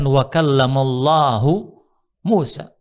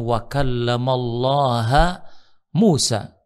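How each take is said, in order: First: The word Allah ends with a 'u' vowel. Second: The word Allah ends with an 'a' vowel. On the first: God is the one who speaks to Moses. The speaker calls it right. "lafaz Allah dalam ayat ini itu marfu sebagai fa'il" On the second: Moses is the one who speaks to God. The speaker calls it wrong. "lafaz Allah dibuat dibaca mansub"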